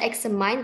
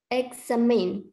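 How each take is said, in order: First: The last syllable rhymes with fine. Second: The last syllable rhymes with tin. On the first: The speaker calls it wrong. "Bukan dibaca examine" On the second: The speaker calls it right. "tapi examine"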